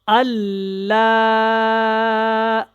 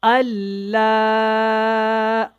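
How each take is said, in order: Both takes have the same delivery.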